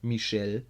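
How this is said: The name is pronounced the French way. "in French"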